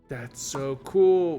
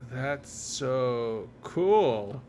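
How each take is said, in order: First: It sounds sincere and genuinely impressed. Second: It sounds sarcastic and mocking. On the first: The speaker really thinks it is cool. The speaker calls it wrong. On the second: The speaker does not really think it is cool. The speaker calls it right.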